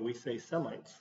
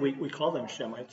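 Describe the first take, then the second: First: The word begins with an 's' sound. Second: The word begins with a 'sh' sound. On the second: "only we don't pronounce it that way"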